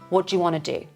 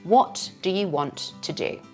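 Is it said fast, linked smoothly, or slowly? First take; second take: fast; slowly. First: It is said fast and informally reduced. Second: It is said slowly with a clear beat.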